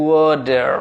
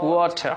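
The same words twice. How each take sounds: First: ওয়াটার as "waw-derr"; d for t in ওয়াটার, sounded r; American pronunciation. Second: ওয়াটার as "waw-ta"; British pronunciation. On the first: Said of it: "American". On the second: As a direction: clear t in ওয়াটার, silent final r. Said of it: "বলবো যে British". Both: Shown as a demonstration.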